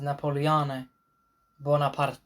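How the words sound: The name is pronounced the Italian way. "That is the Italian Italian pronunciation of his name"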